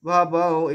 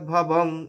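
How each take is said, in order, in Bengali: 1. শব্দটি একটি অনুনাসিক স্বরে শেষ হয়েছে। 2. শব্দটি একটি 'ng' ব্যঞ্জনে শেষ হয়েছে।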